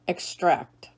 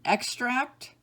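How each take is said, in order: First: Ex-TRACT, second syllable stressed. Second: EX-tract, first syllable stressed, rising. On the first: Teacher giving other pronunciation, extract as ex-TRACT. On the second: Teacher reading word list to students, extract as EX-tract. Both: Shown as a demonstration. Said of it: "give you both pronunciations".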